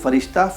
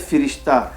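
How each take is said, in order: First: The first syllable has an 'a' vowel. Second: The first syllable has an 'i' vowel. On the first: This is the pronunciation used in Urdu. "लेकिन उर्दू में आने के बाद ये फ़रिश्ता" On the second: This is the original Persian pronunciation. "फ़ारसी ज़बान में इसमें जो पहला हर्फ है उसके नीचे ज़ेर लगाकर पढ़ा जाता है"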